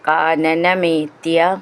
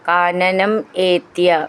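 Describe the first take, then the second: First: The two words merge into one. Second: The two words are said separately.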